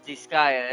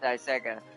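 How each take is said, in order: First: The first syllable sounds like 'dis'. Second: The first syllable sounds like 'die'. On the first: This is the correct pronunciation. The speaker calls it right. "but it's Disgaea" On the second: This is how the speaker used to say it. The speaker calls it wrong. "I used to call it Daisega"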